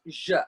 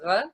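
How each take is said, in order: First: The consonant is a soft j sound. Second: The consonant is a guttural throat sound. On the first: The speaker calls it right. "it's J" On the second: The speaker calls it wrong. "It's not R"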